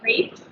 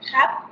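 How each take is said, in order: First: It is said with an American English pronunciation. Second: It is said with a French pronunciation. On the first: "in the U S we say crepes" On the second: "I learned the word um, with the French pronunciation"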